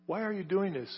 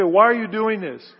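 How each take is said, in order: First: Softer, sorrowful plea; tender question. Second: Louder, scolding challenge; harsh demand. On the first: Jesus asking Saul, soft and tender. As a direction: ask it gently, as a grieved friend. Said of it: "very affectionate". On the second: The voice Jesus did not use on Saul, harsh and loud. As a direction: demand it like an angry accuser. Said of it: "He didn't say". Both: Retold or imitated.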